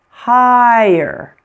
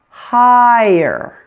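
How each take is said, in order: The two takes are said the same way.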